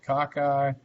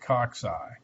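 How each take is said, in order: First: The middle consonant is a plain k sound. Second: The middle consonant is a ks sound. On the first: "some people pronounce that cockeye" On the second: "Some people call, pronounce it coxeye. I've always said coxeye"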